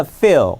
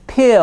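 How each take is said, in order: First: "feel" begun with a clear F, lip on teeth; "feel" with English f at the front; English F sound. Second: "peel" begun with a popped P, lips closed; "peel" with English p at the front; English P sound. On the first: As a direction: say "feel" with an airy F, not a P. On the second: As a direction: say "peel" with a puffed P, not an F. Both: Shown as a demonstration. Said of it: "F와 P의 차이 심각하죠".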